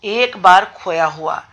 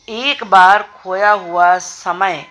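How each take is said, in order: First: Said in the usual way. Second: Slowly, stressing बार in एक बार खोया हुआ समय; slow example reading. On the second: Shown as a demonstration. (धीमे, बार पर ज़ोर देकर) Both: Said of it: "अब इसमें समय की विशेषता क्या है?".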